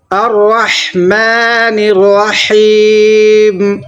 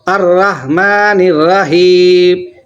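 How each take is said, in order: First: الرحمن الرحیم with throat ح, slow and drawn; proper tajweed الرحمن الرحیم; correct recitation. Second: Mock wrong الرحمن الرحیم; wrong recitation. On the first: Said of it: "صحیح کیا ہے؟". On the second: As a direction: show the common mistake in الرحمن الرحیم. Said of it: "یہ بالکل پورا کا پورا غلط ہے". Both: Shown as a demonstration.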